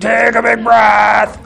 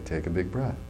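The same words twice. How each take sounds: First: The voice is lively with a marked change. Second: The voice stays flat and unchanged in tone. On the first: The speaker calls it wrong. "It's not like, ring-a-ling-a-ling-a-ling" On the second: The speaker calls it right. "when I make no change in my voice at all and say"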